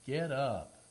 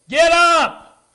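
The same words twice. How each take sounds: First: It is said in a calm, plain way. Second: It is said forcefully, like an exclamation.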